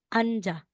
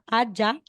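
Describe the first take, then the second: First: An n sound is heard before the j. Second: There is no n sound before the j. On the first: The speaker calls it right. "magiging Anja" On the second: The speaker calls it wrong. "aside na sasabihin mong Anna, diba po, or Aja"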